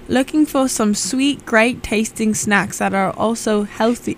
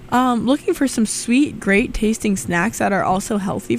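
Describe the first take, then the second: First: It is spoken in a put-on British accent. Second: It is spoken in the speaker's regular accent. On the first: "So this is a dried fruit PSA in British" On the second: "I'm just going to say it in a regular accent"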